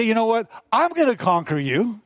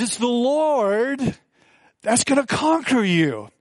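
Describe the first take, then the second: First: Said in the usual way. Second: Slow, higher, with "Lord" held long and weighted; stress on Lord. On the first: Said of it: "So David doesn't say". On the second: Shown as a demonstration. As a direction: lean slowly on "Lord", then "conquer" falls. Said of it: "David says".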